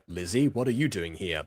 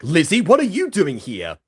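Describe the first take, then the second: First: It is said flatly, with little emotion. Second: It is said with strong, shocked emotion.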